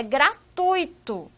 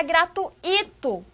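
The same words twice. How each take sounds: First: Gratuito as gra-TUI-to, ui in one glide; slow, stress the u of TUI in gratuito; correct diphthong pronunciation. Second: Gratuito as gra-tu-I-to, i stressed; wrong hiatus pronunciation. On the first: Teacher corrects to the proper gratuito, careful diphthong. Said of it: "A pronúncia não é". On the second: Teacher demonstrates the wrong gratuito with hiatus, exaggerated split. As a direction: break ui in two, punch the I of gratuito. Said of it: "não é gratuito com o hiato". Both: Shown as a demonstration.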